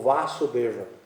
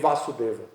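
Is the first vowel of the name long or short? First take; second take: long; short. First: The first syllable has a lengthened vowel. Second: The first syllable has a short vowel. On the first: It names the son. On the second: It names the father.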